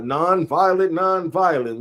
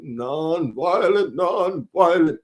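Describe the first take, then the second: First: Lightly voiced peace advocate. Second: Slow, stretched-out orator impression; mock solemn speech voice, very slow; Martin Luther King. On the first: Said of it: "The other one was". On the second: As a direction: draw each syllable out like a civil rights preacher. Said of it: "do my Martin Luther King voice".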